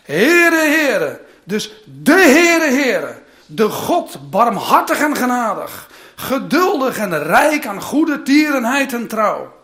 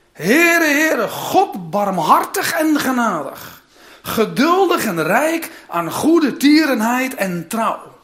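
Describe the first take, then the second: First: Even louder, slower, stretched words with a laugh; rereading the verse to the congregation, fervent; emphatic reread. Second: Louder, slow, solemn proclamation; reading Exodus aloud with solemn force; proclaimed reading. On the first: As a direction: hammer home each word of the name. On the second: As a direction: call out the name of the Lord. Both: Shown as a demonstration. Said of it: "ik ga het nog een keer voorlezen".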